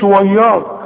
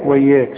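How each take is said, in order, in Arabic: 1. صوت الياء مفخم. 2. صوت الياء مرقق. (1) "انما تقولش وياك" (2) "زي ما تقول وياك"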